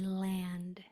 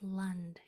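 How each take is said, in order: First: The vowel is a full 'a' sound. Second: The vowel is a reduced 'uh' sound. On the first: The speaker calls it wrong. "You're going to be tempted to say land at the end" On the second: The speaker calls it right. "A changes to the schwa sound and says uh"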